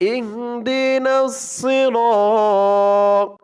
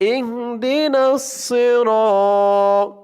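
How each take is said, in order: Both takes have the same delivery.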